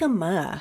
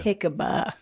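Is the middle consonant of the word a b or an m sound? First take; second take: m; b. First: The middle consonant is an m sound. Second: The middle consonant is a b sound. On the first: The speaker calls it right. "It's jicama" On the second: The speaker calls it wrong. "not jicaba"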